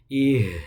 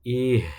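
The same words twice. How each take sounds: The two takes are said the same way.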